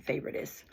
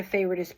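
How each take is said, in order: First: Favoritist breathed out as a soft whisper; whispered aside. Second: Said in the usual way. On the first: Real, not acted. Repeating her grandmother's made-up word in a whisper.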